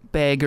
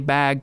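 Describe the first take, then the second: First: Bag is said with a Minnesota-style accent. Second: Bag is said with a standard accent. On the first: "I occasionally give a little bag or something like that" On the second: "I can say bag correctly"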